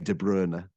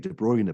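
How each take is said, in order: First: The name has a less familiar pronunciation. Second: The name has the familiar, widely used pronunciation. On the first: The speaker calls it right. "you'll be criticized if you say De Bruyne. People will say, "Who's this guy?" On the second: The speaker calls it wrong. "he's not done his research. He doesn't know how to say his name properly"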